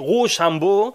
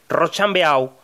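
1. Se pronuncia con pronunciación francesa. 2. Se pronuncia con pronunciación española literal. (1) "si uno intenta utilizar la pronunciación francesa correcta" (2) "pronunciarlo literalmente en castellano"

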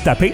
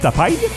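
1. Le mot se termine par le son 'ay'. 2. Le mot se termine par le son 'eye'. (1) "Tu peux l'appeler avec TAPEI comme tapé" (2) "tu peux l'appeler avec un AI à la fin"

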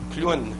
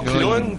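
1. Le mot se prononce 'clou' plus 'nne'. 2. La voyelle ne se prononce pas comme 'clou-nne'. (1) "c'est comme un clou puis une nonne" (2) "Pas clown"

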